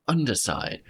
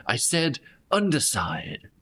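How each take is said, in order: First: Said in the usual way. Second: SAID lifted high with a falling finish; stress on SAID. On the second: Acted. Kel repeating her order to the wounded player, stress on said. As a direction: lean hard on "said" in "I said underside".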